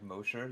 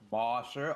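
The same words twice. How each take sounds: First: The first vowel is said with a nearly closed mouth. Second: The first vowel is said with a wide open mouth. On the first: The speaker calls it right. "when you can just keep it like closed, like Mosher, you don't have to move your mouth" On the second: The speaker calls it wrong. "but like Mosher, I have to open my fucking mouth like so loud"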